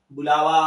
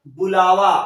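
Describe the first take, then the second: First: Said in the usual way. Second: "बुलावा" said loudly, each syllable clear; emphatic demo word. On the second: Shown as a demonstration. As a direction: present "बुलावा" loudly to the class. ("बुलावा" ज़ोर से, साफ़-साफ़) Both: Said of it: "वा से पहले ल पर आ की मात्रा".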